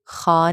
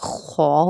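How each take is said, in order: First: The letter is said thin, with a light vowel. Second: The letter is said heavy, with a full mouth. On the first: The speaker calls it wrong. "खा नहीं पढ़ना" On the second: The speaker calls it right. "खौ होता है"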